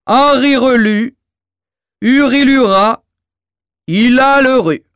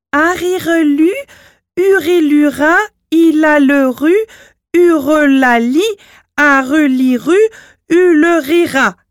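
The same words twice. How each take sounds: First: The giant intones the magic words; dim giant reciting. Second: High, loud, careful chanted spell; chanted, two kids carefully reciting magic words; children chanting. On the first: Acted. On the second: A narrator's reading. Children chant formula together.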